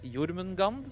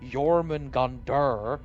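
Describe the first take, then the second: First: The name ends without any r sound. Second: The name ends with an added r sound. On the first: The speaker calls it right. "It is uh, Jormungand" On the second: The speaker calls it wrong. "they add a R behind everything"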